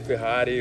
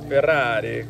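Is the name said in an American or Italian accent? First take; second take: American; Italian. First: It is said in an American accent. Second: It is said in an Italian accent. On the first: "with an American accent" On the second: "like they say it in Italy"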